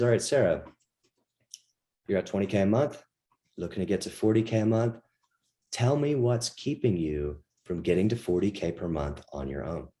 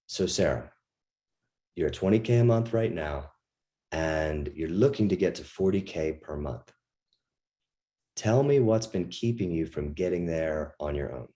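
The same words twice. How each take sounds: First: Fast visual talk. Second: Kinesthetic tonality. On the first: Coach demos the pushy visual style to students. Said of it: "this is fast, like, visual type language". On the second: Coach demos the calm kinesthetic style after a breath. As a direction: take a breath and speak from the gut. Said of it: "you'll hear the difference in tonality". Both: Shown as a demonstration.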